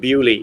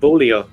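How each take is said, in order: First: The name is said like 'Bewley'. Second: The name follows its French-looking spelling. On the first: "in aristocratic English they pronounce that Bewley" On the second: "it's Lord Montague of Beaulieu"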